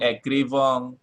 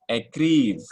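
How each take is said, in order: First: The word ends in a pronounced nasal vowel. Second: The word ends on a bare v sound. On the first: The speaker calls it wrong. "jangan écrivant" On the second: The speaker calls it right. "E N T tidak dibaca ya"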